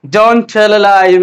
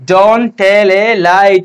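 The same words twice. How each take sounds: First: Very slow, DONT leading; slow dictation. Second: Very slow, drawn out; slow dictation. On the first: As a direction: dictate it slowly to the class. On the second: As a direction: repeat it slowly for the class. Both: Shown as a demonstration. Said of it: "কি বলবো আমরা".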